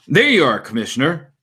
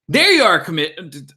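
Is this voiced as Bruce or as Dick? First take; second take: Bruce; Dick. First: It is said in Bruce's voice. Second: It is said in Dick's voice.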